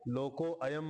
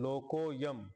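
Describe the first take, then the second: First: The words are separated with an 'a' sound. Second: The words are joined without the 'a' sound. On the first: An extra syllable makes nine instead of eight. The speaker calls it wrong. "लोको अयम म्हणले तर एक शब्द add होतो" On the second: The line keeps its proper eight syllables. The speaker calls it right. "अ नाही म्हणायचं"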